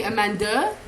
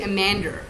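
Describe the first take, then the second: First: Amanda as French people say it; French people's pronunciation. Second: Amander, with an "er" ending; Amander pronunciation. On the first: Telling how French people say the name, imitated pronunciation. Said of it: "I have French people who say". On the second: Telling how some people say the name, "er" ending. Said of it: "some people say Amander". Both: Retold or imitated.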